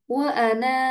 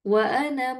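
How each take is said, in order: First: It stops on 'ana' with a long final vowel. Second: It runs on with a short final vowel. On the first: The reader pauses here. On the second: The reader continues without pausing.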